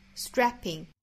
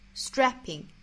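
Both takes have the same delivery.

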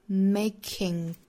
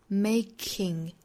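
No difference in how they are said.

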